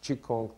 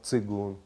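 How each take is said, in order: First: The word begins with a 'ch' sound. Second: The word begins with a 'ts' sound. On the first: This is how it is said in Shanghai. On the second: This is the Russian way of saying it.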